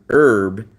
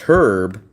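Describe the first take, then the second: First: The word starts with no H sound. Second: The word starts with an H sound. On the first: It names a plant. "as in the plant, you don't pronounce the H at all" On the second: It is a person's name. "you pronounce the H"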